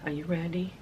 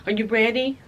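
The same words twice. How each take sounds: First: A soft, dropped, hushed question; hushed tease. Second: Said in the usual way. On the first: Real, not acted. Teasing viewers before unwrapping the shirts, hushed. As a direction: lean in and ask it under your breath.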